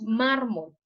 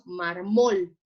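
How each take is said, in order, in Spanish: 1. El acento está en la primera sílaba. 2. El acento está en la última sílaba. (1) "Decimos mármol" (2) "Es como si colocáramos el acento en la O"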